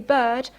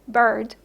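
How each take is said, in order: First: The R after the vowel is silent. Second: The R after the vowel is pronounced. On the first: "in British English, you actually don't pronounce the R" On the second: "as opposed to what happens in American English"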